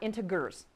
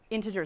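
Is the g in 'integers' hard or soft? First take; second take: hard; soft. First: The g is hard, like in 'go'. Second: The g is soft, like a j sound. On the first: The speaker calls it wrong. "not integers. It doesn't make a lion gur sound" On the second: The speaker calls it right. "Nice soft G"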